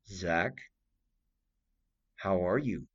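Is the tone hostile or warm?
hostile. It sounds cold and hostile.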